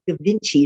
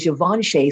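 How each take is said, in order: First: The name is said in an anglicized way. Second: The name is said in the French way. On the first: The speaker calls it wrong. "We didn't know how to pronounce it, so we said Gavinci" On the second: The speaker calls it right. "pronounce them. So we could say Givenchy"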